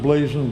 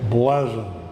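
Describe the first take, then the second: First: The word gets its common everyday pronunciation. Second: The word gets its specialist heraldic pronunciation. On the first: This is how most people say it. "If you are, are like most people, you pronounce it blazon" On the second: This is how heraldry experts say it. "the College of Arms people all say blazon"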